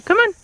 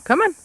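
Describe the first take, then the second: First: Much higher sing-song coax. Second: High rising coax; coaxing dog voice. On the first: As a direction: coax the dog, high and sweet. Coaxing dog. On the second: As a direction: coax the dog along brightly. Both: Real, not acted.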